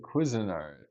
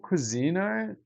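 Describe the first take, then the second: First: Cuisinart as KWIZ-uh-nart; the usual brand pronunciation. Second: Cuisinart with a long "ee", kwi-ZEE-nart; alternative pronunciation. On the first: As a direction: hit the first syllable of Cuisinart, short middle vowel. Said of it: "they say Cuisinart". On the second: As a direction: stretch the middle of Cuisinart into a high "zee". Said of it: "every time they say it". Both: Shown as a demonstration.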